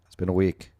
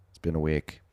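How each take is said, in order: First: Loud, exasperated sigh of a line. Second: Said in the usual way. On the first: Real, not acted. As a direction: stress week, fed up. Exasperated remark, then repeated.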